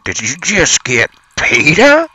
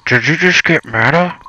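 First: "PETA" said for Meta, high and drawn out; mispronounced Meta. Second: "Meta" with an M and short e, pitched high; corrected to Meta. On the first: Co-host botching the word Meta as "PETA", high rising question. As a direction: stretch "PETA" upward as a question. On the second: Co-host retrying after correction, "Meta" in a high question. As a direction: ask it high, landing on "Meta". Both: Pretend. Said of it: "You mean Meta".

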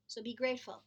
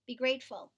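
First: Said in the usual way. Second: "grateful" louder and pressed with a falling end; emphatic plea. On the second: Real, not acted. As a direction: drive the word "grateful" home.

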